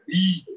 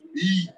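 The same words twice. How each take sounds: First: It is said in a Nigerian accent. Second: It is said in the speaker's plain accent.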